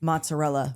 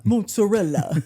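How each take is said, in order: First: Said in the usual way. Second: Mozzarella in a hammed-up Italian accent; mock Italian accent. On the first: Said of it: "try to pronounce mozzarella". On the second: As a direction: say mozzarella like a tourist overdoing the Italian pronunciation. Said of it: "people who go to Italy and try to pronounce".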